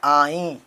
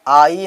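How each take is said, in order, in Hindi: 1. आख़िरी स्वर नाक से गूंजता है। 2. आख़िरी स्वर सादा है, अनुनासिक नहीं। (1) "यहाँ पे आई" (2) "आई नहीं"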